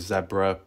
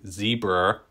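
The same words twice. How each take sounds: First: It is said in a non-American accent. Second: It is said in an American accent. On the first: "I say zebra" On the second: "I think Americans say zebra"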